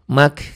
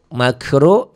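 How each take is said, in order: First: The word ends at 'k' with no 'r'. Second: The word ends with a full 'ru' syllable.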